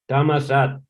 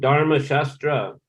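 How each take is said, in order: First: It is said shortened, ending in 'sat'. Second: It is said in full, ending in 'shastra'. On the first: This is how Thai speakers actually say it. "they pronounce it Tamasat" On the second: This is how the word is written. "written Dharma Shastra"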